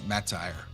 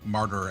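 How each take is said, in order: First: The word ends with a long 'tire' sound. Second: The word ends with a short 'ter' sound. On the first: The speaker calls it wrong. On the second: The speaker calls it right.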